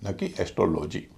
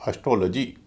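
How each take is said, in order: First: एस्ट्रोलॉजी with a full heavy o in the middle, esh-tro-lo-jee; wrong pronunciation. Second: एस्ट्रोलॉजी with a short, light schwa in the middle, esh-truh-la-jee; correct pronunciation. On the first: Teacher showing students the common mistake, heavy middle o. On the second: Teacher showing students the right way, light middle vowel. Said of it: "पूरे शब्द को बोला जाएगा". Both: Shown as a demonstration.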